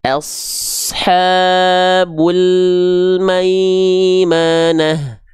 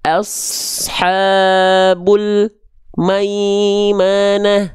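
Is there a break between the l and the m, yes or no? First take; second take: no; yes. First: The l flows straight into the m. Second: There is a gap between the l and the m. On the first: The speaker calls it right. "Nggak terputus kan lamnya?" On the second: The speaker calls it wrong. "jangan sampai ada jarak ... Enggak"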